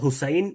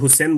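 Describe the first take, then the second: First: The second vowel is the diphthong 'ai'. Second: The second vowel is a plain 'e'. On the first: "আসলে তো হুসাইন" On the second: "Abul হুসেন বলি"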